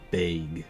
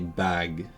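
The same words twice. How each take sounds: First: The word is said with a Canadian vowel. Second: The word is said with a British vowel. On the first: "In Canadian English you say bag" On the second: "in British English you would say bag"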